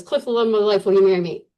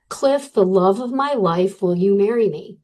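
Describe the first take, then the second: First: Rushed through the note; reading it off in a hurry; read too quickly. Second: Spelling out each word of the note; slower and louder. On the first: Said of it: "really quickly". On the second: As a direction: read slowly, a bit louder. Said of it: "Read it a little slower and a little louder". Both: Retold or imitated.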